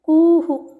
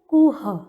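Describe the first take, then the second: First: A short vowel echoes after the final h. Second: It ends on a bare h sound. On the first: The speaker calls it right. "उच्चारण होगा कुहू" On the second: The speaker calls it wrong. "न कि कुह"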